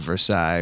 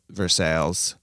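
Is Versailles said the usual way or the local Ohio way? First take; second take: usual; local Ohio. First: It is said the usual, familiar way. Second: It is said the local, different way. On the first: This is how the name is normally known. "They have Versailles" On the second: This is how the town's own people say it. "they just pronounce them differently"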